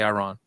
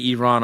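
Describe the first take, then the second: First: First vowel of Iran like "eye"; Iran as eye-RAHN. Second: First vowel of Iran like "ee"; Iran as ee-RAHN. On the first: Interviewer giving their own way, Iran said eye-RAHN. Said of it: "I say Iran". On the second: Interviewer echoing the guest's way, Iran said ee-RAHN. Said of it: "You say Iran". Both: Shown as a demonstration.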